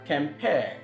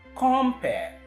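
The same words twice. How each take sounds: First: The stress is on the second syllable. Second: The stress is on the first syllable. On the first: "as against the other one where you have compare" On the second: "that is why the stress goes on the first syllable"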